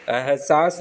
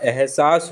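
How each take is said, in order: First: एहसास misspoken as "ah-saas"; wrong a opening. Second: एहसास as "eh-saas"; correct e opening. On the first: Teacher showing the error, एहसास starting "ah". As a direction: open एहसास on a. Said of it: "एहसास नहीं होता". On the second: Teacher correcting it, एहसास starting "eh". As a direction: open एहसास on e. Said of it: "एहसास होता है". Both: Shown as a demonstration.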